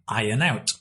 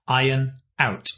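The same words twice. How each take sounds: First: The two words run together smoothly. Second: The two words are said separately.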